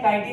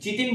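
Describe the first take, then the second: First: It begins with a 'k' sound, 'kai-tin'. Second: It begins with a 'ch' sound, 'chi-tin'. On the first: The speaker calls it right. "इसका उच्चारण है काइटिन" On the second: The speaker calls it wrong. "लेकिन चिटिन बोलते हैं लोग, चिटिन नहीं होता"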